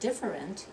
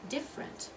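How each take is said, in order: First: The word is said with three full syllables. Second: The word is said with only two syllables. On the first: The speaker calls it wrong. "It's not different" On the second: The speaker calls it right. "We're dropping that second syllable"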